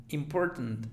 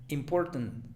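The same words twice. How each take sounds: The two takes are said the same way.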